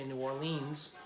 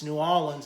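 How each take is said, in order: First: It is said in a general, non-local accent. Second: It is said in the local New Orleans accent. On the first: This is how outsiders say it. The speaker calls it wrong. "They don't say New Orleans" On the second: This is how locals say it. The speaker calls it right. "It's New Orleans"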